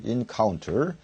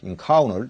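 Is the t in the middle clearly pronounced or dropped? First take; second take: pronounced; dropped. First: The t after n is clearly pronounced. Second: The t after n is dropped.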